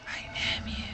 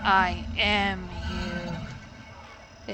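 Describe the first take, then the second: First: It is said in a whisper. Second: It is said in a normal voice.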